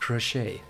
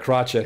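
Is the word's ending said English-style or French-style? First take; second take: French-style; English-style. First: The ending is said French-style without a t. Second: The ending is said English-style with a final t. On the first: The speaker calls it right. "like as if you were French" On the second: The speaker calls it wrong. "I don't think the British say crotchet either"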